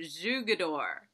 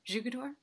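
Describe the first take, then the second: First: "Jugador" slowly drawn out, falling at the end; "Jugador" stretched with great care; careful pronunciation attempt. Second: "Jugador" quick and softer, rising like a question; "Jugador" with a questioning lift; questioning pronunciation check. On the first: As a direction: sound out "Jugador" slowly and low, trying hard. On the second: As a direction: try "Jugador" tentatively, asking if it is right. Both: Real, not acted. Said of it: "I'm gonna try really hard".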